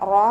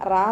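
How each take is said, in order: First: The vowel after r sounds like o. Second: The vowel after r sounds like a. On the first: The speaker calls it right. "റോ എന്നുള്ള സൗണ്ട് കൊടുക്കുക" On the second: The speaker calls it wrong. "റാ എന്നായി പോകരുത്"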